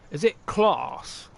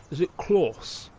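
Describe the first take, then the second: First: "class" drawn out slowly, broad vowel; slow, careful "class" in his own accent. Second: "class" said quickly with a rounder vowel; offhand second try at "class"; quick retry. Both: Shown as a demonstration. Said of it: "I've been saying class because that's my accent".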